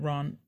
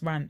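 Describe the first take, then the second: First: The vowel is long and broad, as in 'aunt'. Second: The vowel is short and flat, as in 'ant'. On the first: The speaker calls it wrong. "I need to aunt the sound" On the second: The speaker calls it right. "I don't want to ant it"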